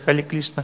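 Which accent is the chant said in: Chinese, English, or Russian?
Chinese. It is said with a Chinese accent, l for r. "Китайцы вообще повторяют"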